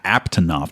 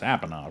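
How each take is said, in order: First: It is said with a T sound. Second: It is said without a T sound. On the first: The speaker calls it right. "There's there was another T hiding in there" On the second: The speaker calls it wrong. "It's Apanoth, right?"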